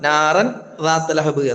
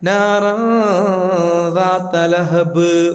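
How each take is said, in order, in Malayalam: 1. അവസാന b-ക്ക് വ്യക്തമായ ബൗൺസ് ഇല്ല. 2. അവസാന b വ്യക്തമായ ബൗൺസോടെ ഉച്ചരിക്കുന്നു. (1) "എന്നല്ല" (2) "ലഹബ് ബാ, പ്രത്യേകം ശ്രദ്ധിക്കണം"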